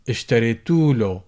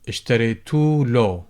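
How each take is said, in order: First: The vowel before 'l' is dropped. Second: The same.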